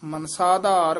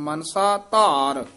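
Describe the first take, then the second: First: The two words are run together as one. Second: The two words are said as separate words. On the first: The speaker calls it wrong. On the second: The speaker calls it right.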